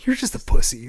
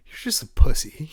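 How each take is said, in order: First: Loud taunt, stress on You're; repeated trash-talk yell. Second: Louder, higher taunting shout at the other team; mock trash-talk yell. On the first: Retold or imitated. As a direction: throw the insult again, leaning on You're. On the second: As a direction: bark the insult across the field. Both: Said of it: "my go-to was".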